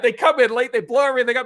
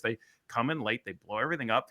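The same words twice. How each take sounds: First: High, loud retold rant; worked-up mock yelling; going off on her. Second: Said in the usual way. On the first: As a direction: imitate a man losing it at a colleague. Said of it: "he just went off on her". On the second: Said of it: "Tara looked at Kevin and said".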